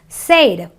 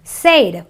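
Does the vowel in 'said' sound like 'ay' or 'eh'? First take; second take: ay; ay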